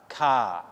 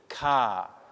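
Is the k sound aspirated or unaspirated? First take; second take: aspirated; aspirated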